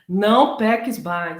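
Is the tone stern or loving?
stern. It is said in a stern, rigid voice.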